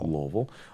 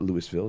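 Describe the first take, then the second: First: It is said the way locals say it. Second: It is said the way outsiders say it. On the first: The speaker calls it right. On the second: The speaker calls it wrong. "It's not it's not Louisville"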